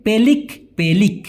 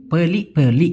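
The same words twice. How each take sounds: First: পেলিক with the final k sounded clearly; পেলিক, k fully pronounced; full spelling pronunciation. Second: পেলি with the final k dropped; পেলি, clipped Malaysian ending without k; Malaysian pronunciation. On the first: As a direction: say পেলিক ending on a crisp k. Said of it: "পুরো আমার মতোই উচ্চারণ করি". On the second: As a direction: say পেলি, swallowing the closing k. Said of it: "পেলি বা অনেশ্বরের মতো উচ্চারণ করে". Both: Shown as a demonstration.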